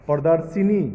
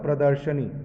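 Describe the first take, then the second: First: प्रदर्शिनी with a long ि after श; wrong form, said as written. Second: Said in the usual way. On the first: Shown as a demonstration. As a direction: read प्रदर्शिनी as the wrong spelling, प्र-दर्-शि-नी. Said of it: "प्रदर्शिनी नहीं होता". (प्रदर्शिनी, गलत उच्चारण, श के बाद इ) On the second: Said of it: "आपका क्या होता है?".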